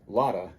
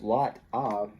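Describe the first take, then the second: First: The T is tapped and the V is dropped. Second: The T is clear and the V is kept. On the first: "this F, ... which actually has a V sound here, can get taken off" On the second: "instead of lot of"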